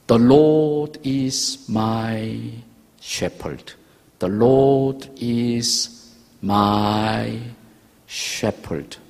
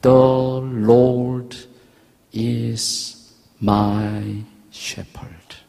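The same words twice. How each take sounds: First: "The Lord is my shepherd" drawn out very slowly, word by word; slow recitation. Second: "The", "Lord", "is", "my shepherd" split apart by pauses; counting the words. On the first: Father teaching his sick son the psalm, very slow. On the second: Preacher counting the five words for the congregation, with a pause after each. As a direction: tap out each word of "The Lord is my shepherd" separately. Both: Shown as a demonstration. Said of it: "영어로 하면 다섯 단어예요".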